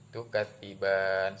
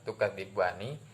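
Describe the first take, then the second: First: The word ends on a consonant. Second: The word ends with a final vowel. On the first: This is the form when stopping at the verse end. "diganti menjadi tukadziban" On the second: This is the form when reading on without stopping. "yang harusnya dibaca tukadzibani"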